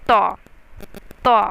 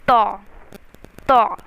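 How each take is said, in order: Both takes have the same delivery.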